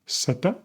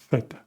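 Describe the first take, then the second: First: The word begins with an s sound. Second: The word begins with a th sound. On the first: This is how it is said in Latin America. "in Latin America, they say zeta with an S sound" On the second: This is how it is said in Spain. "In Spain, we say theta with a T H sound, like in thick"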